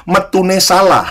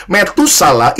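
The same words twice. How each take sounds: First: Metune salah, read as two Javanese words; Javanese misreading. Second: Said in the usual way. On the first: Shown as a demonstration. Preacher jokes to congregation about misreading a name, Javanese "metune salah". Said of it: "Kalau bahasa Jawa bacanya". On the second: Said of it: "ini bukan bagian bahasa Jawa".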